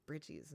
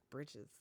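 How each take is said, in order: First: "britches" said the Tennessee way, as locals do; Tennessee pronunciation. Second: "britches" said her own way, low and soft; own Kentucky pronunciation. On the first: Retold or imitated. Telling chat how Tennesseans say it, Tennessee "britches". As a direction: give "britches" its Tennessee sound, not your own. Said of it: "in Tennessee, they call 'em britches". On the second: Shown as a demonstration. Correcting chat on how Tennesseans say it, quiet local "britches". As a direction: give "britches" her home pronunciation to contrast. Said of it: "not britches".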